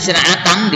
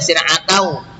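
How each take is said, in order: First: Sir'atan with a clear final n; written form sir'atan. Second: Sir'atau with n turned into w; merged ending in sir'atau. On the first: Teacher reading it as written, clear n in sir'atan. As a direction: sound the written n ending sir'atan. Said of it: "tulisannya sir'atan". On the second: Teacher showing how it is read, w-ending sir'atau. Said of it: "dibaca sir'atau". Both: Shown as a demonstration.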